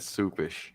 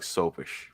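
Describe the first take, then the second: First: The first vowel sounds like the one in 'soup'. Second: The first vowel sounds like the one in 'soap'. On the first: The speaker calls it wrong. "I pronounce it wrong. ... soupish is how a lot of people say it" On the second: The speaker calls it right. "It's more like soapish"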